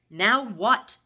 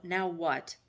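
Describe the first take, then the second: First: Louder, sharp demanding question. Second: Said in the usual way. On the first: Acted. Mother pressing her son for answers, demanding. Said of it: "she demanded". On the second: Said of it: "Now what?" she demanded".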